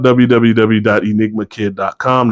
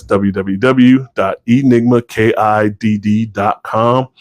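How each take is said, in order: First: Said in the usual way. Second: Slower, with "kidd" said letter by letter as K-I-D-D; "kidd" spelled slowly, one letter at a time. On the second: Real, not acted. Repeats web address spelling out name.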